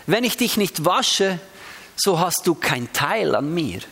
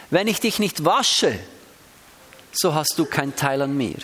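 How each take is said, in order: First: Dich and du weighted, slow reading; stress on dich and du. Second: Ich held and weighted, then du leaned on; stress on ich. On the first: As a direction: lean on dich, then on du. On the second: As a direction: Wenn ICH dich nicht wasche, so hast DU keinen Teil. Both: Shown as a demonstration. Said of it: "Ich kann es ganz unterschiedlich betonen".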